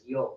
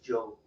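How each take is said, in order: First: The word begins with a Y sound. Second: The word begins with a J sound. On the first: "Central America is yo" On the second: "Spain is Joe again. It's more of a J sound"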